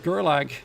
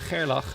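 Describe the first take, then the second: First: The name is said with an English pronunciation. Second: The name is said with a Dutch pronunciation. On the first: "what you English would probably call" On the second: "I would try to call it in the Dutch name"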